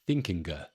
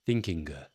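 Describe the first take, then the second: First: It ends in a hard, audible g sound. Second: The same.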